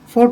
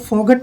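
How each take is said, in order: First: No g sound is pronounced before the t. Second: A g sound is pronounced before the t. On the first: The speaker calls it right. "जी H silent रहेगा" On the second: The speaker calls it wrong. "फोगट नहीं पढ़ेंगे"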